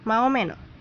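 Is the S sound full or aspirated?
aspirated. The S sounds are aspirated, Chilean style.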